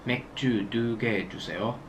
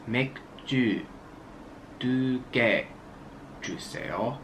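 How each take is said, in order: First: Quick natural speed; fast. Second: Each word spaced and careful; slow over enunciating. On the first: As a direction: rattle it off in one breath. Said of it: "Fast it's". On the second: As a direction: pause between every word. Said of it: "So slowly it's". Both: Shown as a demonstration.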